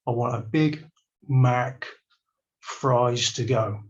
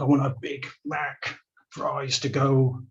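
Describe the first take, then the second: First: It is said very slowly. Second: It is said at normal speed.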